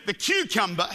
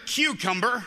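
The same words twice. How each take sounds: First: Said in the usual way. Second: American pronunciation of "cucumber" with a sounded final r; American accent. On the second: Shown as a demonstration. Australian preacher showing the congregation their word, American accent. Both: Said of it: "as you'd say in America".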